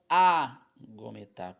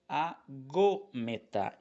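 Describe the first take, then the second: First: The stress falls away from the second syllable. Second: The stress falls on the second syllable. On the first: The speaker calls it wrong. "e não agometar" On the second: The speaker calls it right. "a marcação aí da sílaba tônica que está em cima do ômicron"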